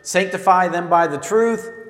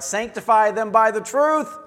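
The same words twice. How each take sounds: First: It is said with little energy. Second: It is said with lots of energy.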